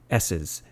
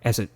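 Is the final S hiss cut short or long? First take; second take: long; cut short. First: The final S hiss continues for a long time. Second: The final S hiss is cut off abruptly. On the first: The speaker calls it right. "If I say S's" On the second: The speaker calls it wrong. "through the L one thousand, it would probably sound something like"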